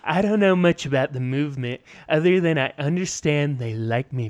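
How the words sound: It is read in a put-on impersonation voice.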